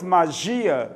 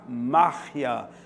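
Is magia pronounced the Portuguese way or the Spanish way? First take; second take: Portuguese; Spanish. First: The word is pronounced the Portuguese way. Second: The word is pronounced the Spanish way. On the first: "Para nós" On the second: "no espanhol"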